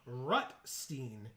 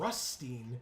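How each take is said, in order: First: The first syllable ends in a t sound. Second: The first syllable has no t sound. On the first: The speaker calls it right. "Have I really been saying it wrong since this set came out?" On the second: The speaker calls it wrong. "I thought it was Rustine with an S"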